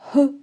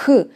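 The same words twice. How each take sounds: First: The sound has weak, light friction. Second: The sound has strong, raspy friction. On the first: "English H is much, much weaker. It's like H" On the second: "in Ukrainian the friction is stronger"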